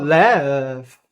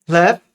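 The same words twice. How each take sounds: First: 'laugh' stretched out with a bending tune; overdone intonation. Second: Said in the usual way. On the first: Shown as a demonstration. Teacher showing learners what to avoid, 'laugh' drawn out with a tune. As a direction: draw out the vowel of 'laugh'. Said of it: "Não tem entonação, a gente não fala". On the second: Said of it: "É somente".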